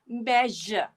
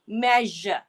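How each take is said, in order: The two takes are said the same way.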